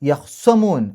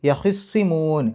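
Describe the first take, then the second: First: The kh sound is followed by no vowel. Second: The kh sound is followed by an i vowel. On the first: "ഖാഇന് സുക്കൂൻ ഇട്ടിട്ട്" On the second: "ഹാഇന് കെസർ"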